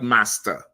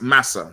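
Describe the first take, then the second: First: The word is said with a t sound. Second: The word is said without a t sound. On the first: The speaker calls it wrong. "not master" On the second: The speaker calls it right. "It's like saying you know mass massa"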